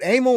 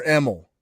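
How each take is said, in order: First: Emil with a long A, AY-mul; long-A pronunciation. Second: Emil with a short E, EM-ul; short-E pronunciation. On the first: Host checking a panelist's name, Emil as AY-mul. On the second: Host offering the other reading, Emil as EM-ul. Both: Shown as a demonstration. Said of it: "Is it Emil or Emil?".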